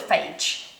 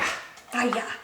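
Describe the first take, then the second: First: The name is said with one syllable. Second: The name is said with two syllables. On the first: This is the familiar everyday way of saying it. "I just call it phage" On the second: This is how the brand's advert says it. "the accented way in the in the advert"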